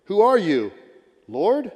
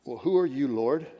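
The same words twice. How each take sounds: First: Higher and louder, crying out to the Lord; louder pleading cry. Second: Said in the usual way. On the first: Acted. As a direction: call out the question, desperate. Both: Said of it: "And I answered".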